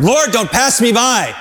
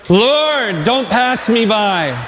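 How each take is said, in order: First: Called out plea, slightly higher; calling out. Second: Slow, drawn-out prayer, higher on Lord; slow earnest plea. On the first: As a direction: cry it out to the Lord as a model. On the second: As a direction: lead the church in saying it slowly. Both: Shown as a demonstration. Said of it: "Let's say that together".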